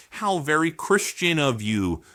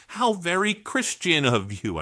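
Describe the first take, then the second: First: Dry sarcastic jab. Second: Sarcastic. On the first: Mocking a congressman with dry sarcasm. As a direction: sneer it with mock praise. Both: Real, not acted. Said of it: "I'm being sarcastic".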